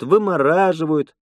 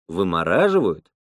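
First: Higher-pitched VYMORAZHIVAYUT as a statement, «вымораживают»; Lena listing. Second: «Вымораживают» starting low, then rising to query; puzzled echo question. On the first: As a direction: say «вымораживают» high, as a list's last item. Lena ending her list. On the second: Man echoes her word, questioning. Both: Acted.

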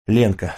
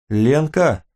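First: Said in the usual way. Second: Mild call to a friend, pitch lifted; a short, restrained call. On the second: A narrator's reading. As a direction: try to get her attention from across the room. Calls to friend already asleep.

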